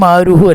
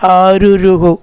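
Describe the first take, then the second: First: The word has a single 'ru' syllable. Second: The word has two 'ru' syllables. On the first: The speaker calls it wrong. "ആരുഹു അല്ല" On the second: The speaker calls it right. "രണ്ട് രൂ ഉണ്ട് കേട്ടോ"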